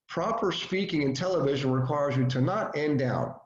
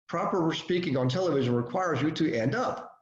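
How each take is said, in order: First: The voice falls at the end. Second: The voice rises at the end.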